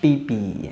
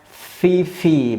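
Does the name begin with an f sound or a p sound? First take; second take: p sound; f sound. First: The name begins with a p sound. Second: The name begins with an f sound. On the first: The speaker calls it wrong. "bukan Pipi" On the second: The speaker calls it right. "Adik saya namanya Fifi"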